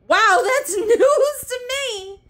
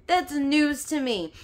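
First: High, loud, slow laughing sarcasm; wow, laughing high and slow; sarcastic laugh. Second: Said in the usual way. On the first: Real, not acted. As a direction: laugh it off in disbelief.

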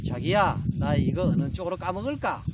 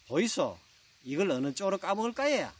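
First: Lightly voiced, cutesy Seoul bride. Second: Copycat question in Gyeongsang dialect intonation; Gyeongsang bride. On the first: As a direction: ask your husband with a hint of playful aegyo. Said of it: "서울 신부가 바나나를 먹으려다가". (살짝 애교 섞인 서울 신부) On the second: Acted. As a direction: imitate the Seoul bride with a Gyeongsang lilt. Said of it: "경상도 신부가 셈이 좀 나서 또 따라하죠". (경상도 억양으로 따라 묻는 신부)

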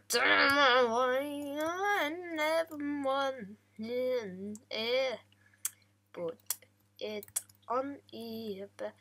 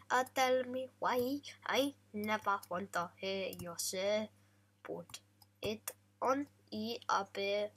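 First: Put-on slow, crooned boy-band line, a bit louder; sung lyric. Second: Lyric recited in a light mock Italian accent, unsung; mock Italian accent, spoken. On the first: Gamer serenading his cow with the lyric, slow crooning song. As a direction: croon it slowly like a pop ballad. Sings the lyric after speaking it. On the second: Gamer reciting the lyric to his cow, lightly mock Italian, spoken. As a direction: talk the words in a hint of Italian accent.

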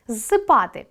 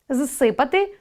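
First: Зсипати with stress on па, falling; Зсипати, lean on па. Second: Зсипати with stress on си, rising; Зсипати, hit си. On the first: Teacher checking the imperfective, stress on па. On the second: Teacher checking the perfective, stress on си. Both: Shown as a demonstration. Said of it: "Наголос допомагає розрізняти види".

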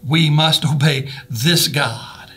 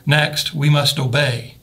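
First: Very slow, weighty; We must obey this God, slowly, each word pressed; emphasis on God. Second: Slow, obey leaned on; stress on obey. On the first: Preacher drives home obeying God, very slow. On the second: Preacher moves to obey, slow and stressed. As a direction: land hard on obey. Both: Shown as a demonstration. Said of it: "put the emphasis on those".

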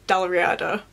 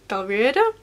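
First: Said in the usual way. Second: "Dalriada" with a questioning rise at the end; unsure pronunciation. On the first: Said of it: "how to pronounce that". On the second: Real, not acted. Reader unsure how the blurb's place name is pronounced, questioning. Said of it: "gonna have to Google how to pronounce that".

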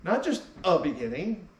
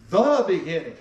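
First: Said in the usual way. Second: "the" hit hard and louder, "beginning" falling; stress on THE. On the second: Shown as a demonstration. Pastor insisting to the congregation, stressing "the". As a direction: lean into "the", then let "beginning" drop.

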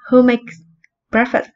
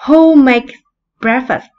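First: Said in the usual way. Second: Called out loud and high to the class; loud model question. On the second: Shown as a demonstration. Teacher calls the model question out loud to her pupils. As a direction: ask it big and clear so the class hears. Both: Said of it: "Bây giờ mình hỏi nhé".

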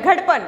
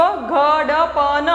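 First: "घड़पन" quick, as one word; said directly. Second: "घड़पन" slowly, each letter sound separate; slow reading. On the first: Teacher shows direct reading, "घड़पन" as one word. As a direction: say "घड़पन" straight off, letters joined. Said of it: "फिर उसको direct बोलना है". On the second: Teacher lets pupils memorise first, "घड़पन" slowly sounded out. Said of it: "आपने याद कर लिया". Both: Shown as a demonstration.

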